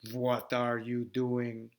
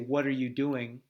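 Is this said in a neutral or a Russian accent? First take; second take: Russian; neutral. First: It is said in a slow, monotone Russian accent. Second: It is said in a neutral accent. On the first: "In Russia, I would say, ... Slowed it down, more monotone" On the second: "So we might say"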